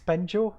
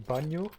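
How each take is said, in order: First: The name is pronounced with English sounds. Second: The name is pronounced with Dutch sounds. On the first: "I'm not entirely sure if I pronounced that correctly in English" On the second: "In Dutch we would say Banjo"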